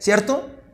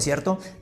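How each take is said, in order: First: The pitch rises at the end. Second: The pitch falls at the end. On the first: The speaker is checking something they are nearly sure of. "para comprobar algo" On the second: The speaker is being ironic and expects no answer. "para expresar ironía"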